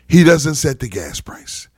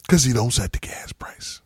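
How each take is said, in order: First: Said in the usual way. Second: Hushed, breathy whisper of the point; conspiratorial whisper. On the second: Real, not acted. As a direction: whisper it like a secret everyone should know. Hushed aside repeating the point.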